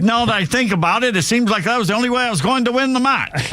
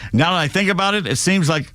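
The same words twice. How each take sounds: First: Put-on high-pitched, off-target Australian accent; botched Australian accent. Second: Put-on faint, abandoned Australian accent; attempted Australian accent. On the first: Host quoting tennis player Gadecki, botched Australian accent. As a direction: commit to a bad Australian accent. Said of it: "I have no idea what accent that was". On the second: Host quoting tennis player Gadecki, tentative Australian accent. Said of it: "I can't do an Australian accent".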